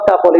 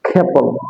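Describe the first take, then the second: First: The first k has no puff of air. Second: The first k has a puff of air. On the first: The speaker calls it wrong. "It's not কাপল" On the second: The speaker calls it right. "It will be খেপল"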